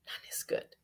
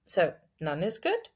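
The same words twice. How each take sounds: First: Whispered, much softer; hushed repeat. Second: "good" lifted into a question. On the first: Preacher pondering the verse just read, whispering. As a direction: drop to a bare whisper. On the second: Preacher querying the verse, questioning rise on "good". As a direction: ask it, voice rising on "good". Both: Acted.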